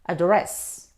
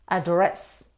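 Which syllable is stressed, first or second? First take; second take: second; second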